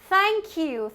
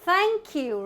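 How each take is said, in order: Both takes have the same delivery.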